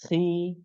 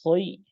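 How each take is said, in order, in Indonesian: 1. Hurufnya diucapkan tipis dan ringan. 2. Hurufnya diucapkan tebal dan berat. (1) "maka pengucapannya tipis langsung" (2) "tidak khoi"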